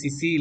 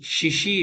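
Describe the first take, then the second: First: The word begins with an 's' sound. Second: The word begins with a 'sh' sound. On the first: The speaker calls it wrong. "சிசி இல்ல" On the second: The speaker calls it right. "ஷிஷி ஷிஷி"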